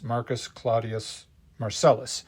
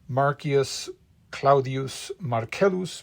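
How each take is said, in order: First: The name is said with English pronunciation. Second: The name is said with Latin pronunciation.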